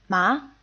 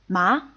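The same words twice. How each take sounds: Both takes have the same delivery.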